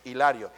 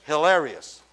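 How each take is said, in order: First: Said in the usual way. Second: "hilarious" said the English way, slowly; English pronunciation. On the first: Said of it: "En inglés". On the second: Shown as a demonstration. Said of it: "en inglés es hilarious". ("hilarious" pronunciado en inglés, despacio)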